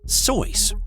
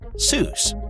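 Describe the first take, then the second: First: The vowel is an oy sound. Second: The vowel is an oo sound. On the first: The speaker calls it right. "it's supposed to be Soyce, rhymes with voice" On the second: The speaker calls it wrong. "it's truly not pronounced Seuss"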